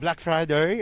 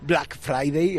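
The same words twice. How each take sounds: First: It is said with an American English accent. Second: It is said with a plain Spanish accent.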